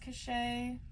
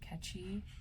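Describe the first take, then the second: First: It sounds like the word cachet. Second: It sounds like the word catchy. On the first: "I read it as Cachet" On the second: "some other people pronounce it differently, like catchy"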